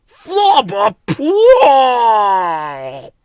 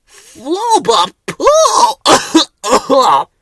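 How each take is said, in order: First: Very slow, loud drawn-out yuck; disgusted gibberish. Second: Higher, very slow, loud yuck; disgusted gibberish. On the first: Bill hit by the stronger smell, loud disgusted gibberish. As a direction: recoil from the stench. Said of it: "said Bill". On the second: Ben echoing Bill about the smell, high disgusted gibberish. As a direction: gag on the stench. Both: A narrator's reading.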